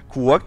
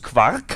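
First: The word is pronounced the English way. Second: The word is pronounced the German way. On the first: The speaker calls it wrong. "das klingt zu Englisch" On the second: The speaker calls it right. "das muss Quark heißen"

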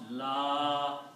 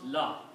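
First: The vowel in la is long. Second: The vowel in la is short. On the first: The speaker calls it right. "La has alif and a mad, so it should be pronounced la ika" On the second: The speaker calls it wrong. "most people just pronounce la"

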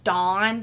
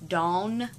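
First: The vowel sounds like the one in 'con'. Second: The vowel sounds like the one in 'lawn'. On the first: The speaker calls it wrong. "It's not Dawn, it's not D-O-N" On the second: The speaker calls it right. "it's Dawn, D-A-W-N. There's a difference"

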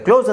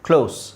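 First: The word ends with a z sound. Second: The word ends with an s sound. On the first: It means shut. "ಝೆಡ್ ಹಾಕಿದ್ರೆ ಕ್ಲೋಸ್ ಆಗುತ್ತೆ" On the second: It means near. "ಇಲ್ಲಿ ಎಸ್ ಇದೆ ನೋಡಿ"

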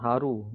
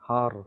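First: The word ends with a short u vowel. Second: The word ends on the consonant r. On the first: The speaker calls it wrong. "not haru" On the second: The speaker calls it right. "Stopping is anhar"

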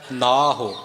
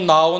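First: The word is said with a final ho sound. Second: The word is said with a final u sound. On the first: It means husband or master. The speaker calls it right. "ਨਾਹੋ ਦਾ ਅਰਥ ਹੈ ਪਤੀ" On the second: It means name. The speaker calls it wrong. "ਇਹਨੂੰ ਨਾਉ ਨਹੀਂ ਬੋਲਣਾ"

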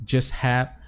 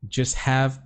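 The two takes are said the same way.

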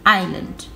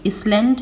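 First: The S sound is silent in the word. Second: The S sound is pronounced in the word. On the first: The speaker calls it right. "You don't say the S" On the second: The speaker calls it wrong. "we don't say Island"

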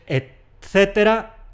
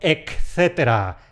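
First: It is said with a t and no k sound. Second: It is said with a k sound before the c. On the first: The speaker calls it right. "Es etcétera" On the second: The speaker calls it wrong. "y no etcétera"

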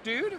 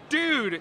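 First: The voice rises at the end, like a question. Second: The voice falls at the end.

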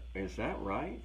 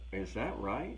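First: The question sounds genuinely curious. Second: The same.

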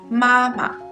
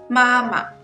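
No difference in how they are said.

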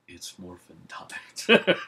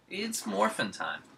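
First: It is said with more conviction and energy. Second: It is said with little conviction.

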